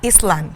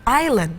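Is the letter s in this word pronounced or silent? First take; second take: pronounced; silent. First: The s sound is pronounced. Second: The s sound is silent. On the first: The speaker calls it wrong. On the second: The speaker calls it right. "Jadi S-nya itu tidak dibunyikan"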